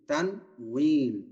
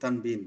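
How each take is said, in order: First: The second syllable begins with a w sound. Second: The second syllable begins with a b sound. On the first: The speaker calls it right. "তার সঠিক উচ্চারণ হচ্ছে তানউইন" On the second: The speaker calls it wrong. "আমরা বাংলাতে সারা জীবন তানবিন বলছি"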